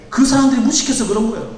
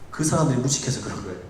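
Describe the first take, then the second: First: A firm preacher's second take; emphatic repeat. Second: Low, soft, almost under the breath; a quiet, muttered first take; soft aside. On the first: Repeated to congregation, now emphatic. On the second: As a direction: drop the voice and murmur it to yourself. Pastor repeats line, first softly. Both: Acted.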